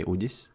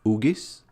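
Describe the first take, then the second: First: "Udis" said the Latvian way, soft consonant in the middle; Latvian pronunciation. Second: "Ugis" said with a hard g; hard-g pronunciation. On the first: Streamer showing a viewer the Latvian way of saying "Udis". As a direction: say "Udis" as in Latvian, not with a hard g. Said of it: "In Latvian, you would say". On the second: Streamer checking a viewer's name, "Ugis" with hard g. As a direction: say "Ugis" with g as in get. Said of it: "Ugis or Udis?". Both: Shown as a demonstration.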